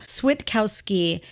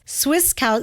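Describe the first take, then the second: First: The middle is said with a t sound. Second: The middle is said with an s sound. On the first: The speaker calls it right. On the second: The speaker calls it wrong.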